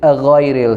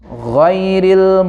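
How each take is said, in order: First: An extra 'a' vowel comes before the 'gh'. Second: The word starts directly with the 'gh' sound. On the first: The speaker calls it wrong. "Sering orang tuh sebut aghairil, ada a-nya itu" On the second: The speaker calls it right. "Jadi langsung ghairil"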